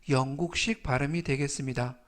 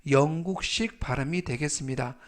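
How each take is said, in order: The two takes are said the same way.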